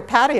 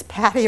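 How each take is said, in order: First: "Patty" with a flapped T, like paddy; soft-T Patty. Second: "Patty" with a crisp, aspirated T. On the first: Asking colleague about her name, "Patty" said like paddy. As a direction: say "Patty" with a quick D sound. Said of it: "if it's Patty or Patty". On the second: Asking colleague about her name, "Patty" with crisp T. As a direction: keep the T in "Patty" distinct, Pat-tee. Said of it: "not quite sure if it's Patty or Patty". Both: Retold or imitated.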